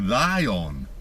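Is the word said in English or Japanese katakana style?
Japanese katakana. It is said as Japanese katakana 'raion'. "his teachers taught him to say lion. R A I O N"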